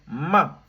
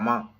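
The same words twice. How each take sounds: First: It is said with a sharply falling pitch. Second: It is said with no tone, light and short. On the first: "Avec le quatrième ton" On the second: "ça n'a pas de ton"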